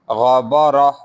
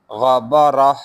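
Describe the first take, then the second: First: The word ends softly with an 'h' sound. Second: The same.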